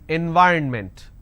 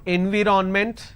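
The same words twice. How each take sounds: First: The third syllable is a reduced 'rn'. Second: The third syllable is a full 'ron'. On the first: The speaker calls it right. "N Y R N ment. So this is the correct pronunciation" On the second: The speaker calls it wrong. "you end up pronouncing N V ron ment. Now this is wrong"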